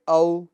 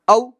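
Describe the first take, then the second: First: The diphthong is said smoothly without a jerk. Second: The diphthong is cut off with an abrupt jerk. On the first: The speaker calls it right. "बल्कि" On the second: The speaker calls it wrong. "झटका भी नहीं देना"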